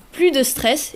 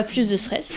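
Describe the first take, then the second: First: « plus » dit « plu », sans S final; S muet dans « plus ». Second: « plus » dit « plusse », avec S final; S sonore dans « plus ». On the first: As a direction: say "plus" as "ply", final S silent. (« plus » prononcé sans le S) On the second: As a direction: sound the final S of "plus", softer aside. (« plus » prononcé avec le S) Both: Shown as a demonstration. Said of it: "et pas plus de stress".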